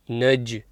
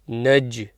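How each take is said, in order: No difference in how they are said.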